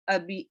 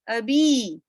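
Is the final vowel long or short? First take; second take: short; long. First: The final vowel is short. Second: The final vowel is lengthened. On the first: "instead of" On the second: "There is a mud sound coming"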